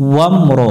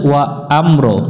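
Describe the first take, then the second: First: The syllables run together without any break. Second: The syllables are split apart with a break. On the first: The speaker calls it right. "ওয়া আম পড়া যাবে না" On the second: The speaker calls it wrong. "এখানে অনেকজনই ভুল করে"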